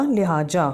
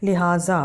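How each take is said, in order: First: लिहाजा said with a hard j, liha-ja; लिहाजा ending in ja; wrong reading with j. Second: लिहाजा with a z sound, liha-za; लिहाजा ending in za; correct lihaza. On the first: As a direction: read लिहाजा without nuqta, j sound. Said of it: "जब था बिना नुक्ता के तो था लिहाजा". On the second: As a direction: say लिहाजा with nuqta z. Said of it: "हमारा क्या होगा". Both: Shown as a demonstration.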